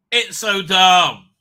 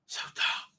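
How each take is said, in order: First: Louder and slow, stretched in disgust. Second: Whispered and weary. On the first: Host ranting to chat about the plot, loud and slow. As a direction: drag out the words, loud and fed up. Repeating it loudly. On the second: Host deflated by the plot, whispered to himself. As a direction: sigh the words out under your breath. Muttering after a sigh. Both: Real, not acted.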